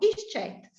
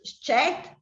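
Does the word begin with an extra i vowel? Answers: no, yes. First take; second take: yes; no. First: The word starts with an added i vowel. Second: The word starts directly with the s sound. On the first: A consonant comes before the word. "ci metto una, una vocale" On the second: No consonant comes before the word. "non ci metto la i"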